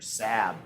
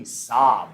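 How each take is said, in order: First: "Saab" with a short flat a, like "sab"; mispronounced Saab. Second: "Saab" with an open ah vowel, like "sahb"; usual pronunciation of Saab. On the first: Quiz host joking for those unsure, "Saab" mispronounced as "sab". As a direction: say "Saab" to rhyme with "cab", lower and softer. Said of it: "if you don't know how to pronounce". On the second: Quiz host reading out answer D, "Saab" said as "sahb". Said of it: "how to pronounce Saab". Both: Shown as a demonstration.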